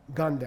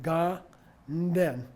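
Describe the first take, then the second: First: The two syllables are run together quickly. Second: The two syllables are said slowly and apart.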